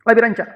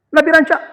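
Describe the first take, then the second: First: Said in the usual way. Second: Lebih rancak, rancak punched high and loud; emphatic. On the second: Shown as a demonstration. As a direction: hit rancak hard and high. (tekanan kuat pada rancak)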